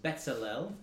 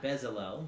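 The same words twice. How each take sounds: First: The middle consonant is a ts sound. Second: The middle consonant is a plain z sound. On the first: The speaker calls it right. "The Z there is actually a TZ, so it's Bezalel" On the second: The speaker calls it wrong. "his name is not Bezalel, which looks like that in the English"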